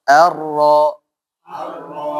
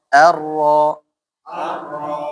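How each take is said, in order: No difference in how they are said.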